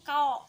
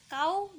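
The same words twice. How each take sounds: First: "kau" ending on o instead of u; salah baca kao. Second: "kau" ending on a clear u; dibaca kau. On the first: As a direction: open the end of "kau" to o. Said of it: "bukan kau". ("kau" berakhir bunyi o, bukan u) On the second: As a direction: round "kau" fully into u. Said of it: "Kata kau dibaca kau". ("kau" dengan akhiran u yang jelas) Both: Shown as a demonstration.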